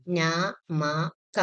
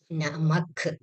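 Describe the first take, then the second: First: "നമക" sounded out slowly, each letter a full syllable; sounding out letters. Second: "നമക്" read as one word, last letter half with no vowel; blended reading. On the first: Teacher sounding out a Hindi word for students, slowly and letter by letter. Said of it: "കുറച്ച് വാക്കുകൾ കൂടി വായിച്ചു നോക്കാം". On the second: Teacher reading the finished Hindi word to students, blended. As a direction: run "നമക്" together, ending on a bare k. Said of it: "ലാസ്റ്റത്തെ letter half ആയിട്ടാണ് read ചെയ്യുക". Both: Shown as a demonstration.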